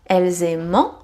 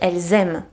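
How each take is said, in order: First: The final ending is pronounced as a nasal en. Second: The final ending is silent. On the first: The speaker calls it wrong. "E, N together makes en. But here you don't pronounce it. So it is not" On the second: The speaker calls it right. "but elles aiment"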